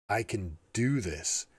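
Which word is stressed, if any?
do. The word "do" is stressed.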